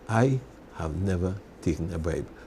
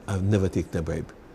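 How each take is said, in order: First: It is spoken slowly and deliberately. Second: It is spoken at a normal pace.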